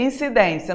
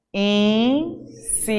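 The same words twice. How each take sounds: First: Said in the usual way. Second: INCIDÊNCIA slowly in four beats, IN, CI, DÊN, CIA; separated syllables. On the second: Shown as a demonstration. Teacher showing students how to separate it, INCIDÊNCIA syllable by syllable. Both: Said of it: "como é que você vai separar".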